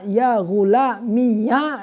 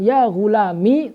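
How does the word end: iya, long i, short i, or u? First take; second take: iya; short i. First: The word ends in an added ya syllable. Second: The word ends in a short i vowel. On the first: "dengan dibaca ya yang difathahkan" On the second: "tanpa ya"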